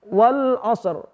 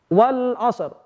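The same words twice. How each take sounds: The two takes are said the same way.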